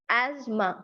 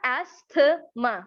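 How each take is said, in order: First: "asthma" as az-ma, the th silent; two-sound asthma. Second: "asthma" drawn out as as-tha-ma, th sounded; three-sound asthma. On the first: Teacher modelling the right "asthma" for learners, az-ma with silent th. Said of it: "right sound है ना वो दो हैं". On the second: Teacher showing learners the mistaken "asthma", three sounds, th voiced out. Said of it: "कितनी आवाजें आ रही हैं". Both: Shown as a demonstration.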